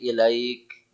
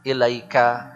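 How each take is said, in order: First: The final vowel is dropped, ending on k. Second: The final vowel is pronounced, ending on ka. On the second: "lebih berkesan kalau dibaca"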